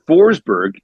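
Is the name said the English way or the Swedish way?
English. The name is said with an English pronunciation.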